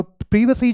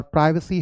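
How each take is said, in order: First: प्राइवेसी said with short i, "PRIV"; British pronunciation. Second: प्राइवेसी said with "PRY"; American pronunciation. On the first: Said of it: "British English में हम बोलते हैं". (प्राइवेसी का British "प्रिवेसी" उच्चारण) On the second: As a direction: give प्राइवेसी a long i. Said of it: "American English में बोलते हैं". (प्राइवेसी का अमेरिकी "प्राइवेसी" उच्चारण) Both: Shown as a demonstration.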